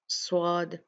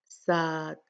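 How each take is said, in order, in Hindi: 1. 's' होंठ गोल करके बोला जाता है। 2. 's' ध्वनि हल्की बोली जाती है, जैसे सादा s। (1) "अपने होंठों को गोल कर लेते हैं। ये भी गलत अदायगी का तरीका है" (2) "सीन के साथ में पढ़ लेते हैं। ... ये गलत है"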